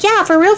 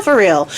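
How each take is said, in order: First: A sudden high, eager "Yeah, for real"; high squeaky insistence. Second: Said in the usual way. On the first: Retold or imitated. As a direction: pitch jumps up on "for real". Theseus insists he means it.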